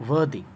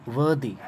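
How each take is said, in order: Both takes have the same delivery.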